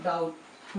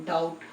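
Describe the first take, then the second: First: डाउट said the right way, silent letter dropped, falling and softer; correct pronunciation. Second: डाउट said the wrong way, as spelt, the way not to read it; wrong pronunciation. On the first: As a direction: give डाउट its proper reading, silent letter left out. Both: Shown as a demonstration. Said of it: "डाउट नहीं पढ़ते हैं".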